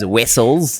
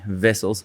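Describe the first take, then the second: First: The name begins with a W sound. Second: The name begins with a V sound. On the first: "would be known as Wessels" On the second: "we pronounce the W as a V"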